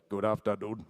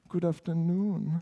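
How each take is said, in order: First: The greeting sounds crisp, clipped and techy. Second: The greeting sounds soft, warm and approachable. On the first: The project has a technical personality. "Maybe it's a bit more techy" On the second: The project has a friendly personality. "maybe it's a bit more approachable, like hug me"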